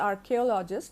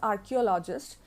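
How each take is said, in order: First: The 'ch' sounds like 'k' in key. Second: The 'ch' sounds like 'ch' in church. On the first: The speaker calls it right. "actually, this pronunciation is archaeologist because the word has been derived from uh, the word archaic" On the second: The speaker calls it wrong. "Often people have the habit of pronouncing it as archaeologist, so they make the mistake"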